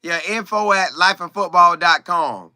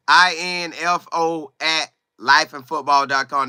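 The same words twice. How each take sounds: First: Said in the usual way. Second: "I N F O" spelled out letter by letter. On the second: Shown as a demonstration. Host giving viewers his email, spelling out "I N F O" letter by letter. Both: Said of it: "That's my email".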